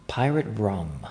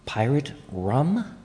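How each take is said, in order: First: Said in the usual way. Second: Slow, puzzled rising question; surprised question. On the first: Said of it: "The beverage is". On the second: Real, not acted. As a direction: ask it in disbelief. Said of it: "What is that?".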